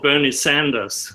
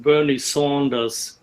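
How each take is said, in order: First: The surname is said the usual local way. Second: The surname is said the non-local, foreign way. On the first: It is how people here pronounce it. "Here is called" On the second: It copies how someone else pronounced it. "I like your pronunciation"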